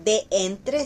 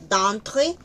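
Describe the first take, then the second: First: "de entre" as two words, Spanish style; wrong form shown. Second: "d'entre" as one syllable, French; correct form shown. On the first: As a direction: show "de entre" as the mistake. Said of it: "d'entre no es de entre". (ejemplo incorrecto: "de entre") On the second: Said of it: "sino d'entre". (forma correcta: "d'entre") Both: Shown as a demonstration.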